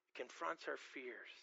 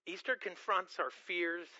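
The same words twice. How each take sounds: First: It confronts our fears dropped much softer, falling on confronts; softer repeat. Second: Confronts leaned on, slowed a little; stress on confronts. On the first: Preacher echoing his theme to the congregation, hushed. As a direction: let confronts sink low and soft. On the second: Preacher stating the theme, plain emphasis on confronts. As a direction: press on the word confronts. Preacher repeats key line. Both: Acted.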